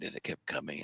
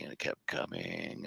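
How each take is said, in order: First: Said in the usual way. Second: Slower and softer, almost breathed; slow hushed repeat. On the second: Retold or imitated. Storyteller to host, slow hushed build of suspense. Car approaching in dark desert.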